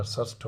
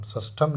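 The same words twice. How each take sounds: First: षष्ठ ending on the th, no -am; correct form. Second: षष्ठम with an added -am ending; wrong form. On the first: Teacher gives the right ordinal, short-ended षष्ठ. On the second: Teacher rejects the wrong ordinal, षष्ठम ending -am. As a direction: tack -am onto षष्ठम. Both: Shown as a demonstration. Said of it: "षष्ठम नहीं होता".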